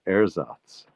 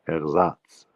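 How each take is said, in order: First: The stress is on the first syllable. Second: The stress is on the second syllable. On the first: This is the English way of saying it. The speaker calls it wrong. "That's how we say it in English" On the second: This is the German way of saying it. The speaker calls it right. "in German it's ersatz. The, the stress is on the Satz"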